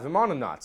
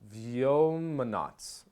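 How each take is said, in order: First: The first syllable sounds like 'vim'. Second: The first syllable sounds like 'vyom'. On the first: The speaker calls it wrong. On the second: The speaker calls it right.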